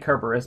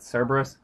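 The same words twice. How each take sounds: First: The name begins with a hard K sound. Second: The name begins with a soft S sound. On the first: This follows the original Greek spelling with kappa. "I say Cerberus because it's more historically accurate" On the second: This is the common modern way of saying it. "most people pronounce it Cerberus"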